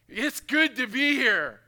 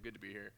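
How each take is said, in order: First: It is said with awe and strong feeling. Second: It is said lightly, like a routine greeting. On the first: The speaker is overwhelmed by what he has seen. "He's blown away" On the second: It is an ordinary polite greeting. "How you doing this morning?"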